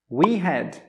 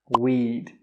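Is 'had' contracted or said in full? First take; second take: full; contracted. First: The word had is said in full. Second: Had is reduced to a short d sound. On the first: The speaker calls it wrong. "Most native speakers don't say I had" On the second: The speaker calls it right. "They will say I'd"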